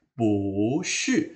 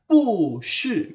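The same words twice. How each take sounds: First: "pu shi" with pu rising, shi falling; correct second-tone pu. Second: "pu shi" with both syllables falling from high; wrong fourth-tone pu. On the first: Teacher shows the required reading, rising pu. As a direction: lift "pu", then drop "shi". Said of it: "harus dibaca pu shi". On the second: Teacher shows the reading to avoid, falling pu. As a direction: drop "pu" hard, then drop "shi". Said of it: "Jadi tidak dibaca pu shi". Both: Shown as a demonstration.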